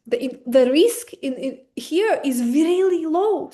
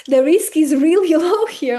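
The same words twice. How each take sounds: First: REALLY stumbled over, drawn out slowly; accented slip. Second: REALLY said over louder and higher, with a laugh; corrected retake. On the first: Explaining the risk to viewers, accented slip on REALLY. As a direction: trip on REALLY in a slow, stretched delivery. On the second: Redoing the line after apologizing for accent, laughing correction on REALLY. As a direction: laugh through a louder second try at REALLY. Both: Real, not acted. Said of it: "Sorry with my accent".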